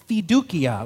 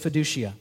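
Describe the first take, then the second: First: It is said with a Latin pronunciation. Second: It is said with an English pronunciation. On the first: "I'm going to pronounce them in Latin" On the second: "then I will pronounce them in English the way I'm going to say them"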